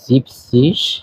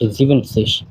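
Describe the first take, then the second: First: The word is said with two syllables. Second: The word is said with three syllables. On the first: The speaker calls it right. "সত্তরকে বলা হয় জিপ সিস" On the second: The speaker calls it wrong. "Not জিভেন সিস"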